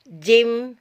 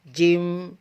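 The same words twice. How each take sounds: First: The sound is open and released straight forward. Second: The sound is gathered and held inside the mouth. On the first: The speaker calls it right. "suara harus terbuka langsung ke depan sini" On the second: The speaker calls it wrong. "tidak boleh terkumpul di dalam"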